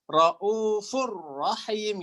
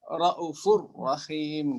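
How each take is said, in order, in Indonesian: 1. Vokal pada kata pertama dibaca panjang. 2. Vokal pada kata pertama dibaca pendek. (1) "kalau Imam Imam Hafs raufur rahim gitu kan" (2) "nggak ada matnya"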